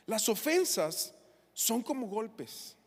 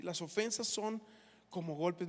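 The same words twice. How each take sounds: First: Las ofensas dichas despacio y marcadas; slow emphatic statement. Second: Said in the usual way. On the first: Shown as a demonstration. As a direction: golpes alargado con peso. (frase lenta y enfática)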